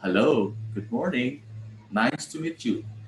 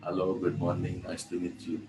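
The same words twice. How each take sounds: First: The greeting rises and falls with lively expression. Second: The greeting is said in a flat monotone. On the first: The speaker calls it right. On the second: The speaker calls it wrong.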